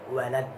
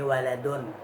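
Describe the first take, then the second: First: The word ends on a bare final consonant. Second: The word ends with a spoken -un ending.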